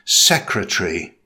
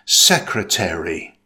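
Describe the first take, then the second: First: It is said with three syllables, British style. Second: It is said with four syllables, American style.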